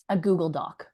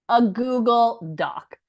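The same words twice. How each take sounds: First: Said in the usual way. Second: "a Google Doc" said slowly and a bit higher, each word weighed; stressed Doc. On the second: Shown as a demonstration. Showing her students the simple tool she used, slow emphasis. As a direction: lean on "a Google Doc", drawing it out.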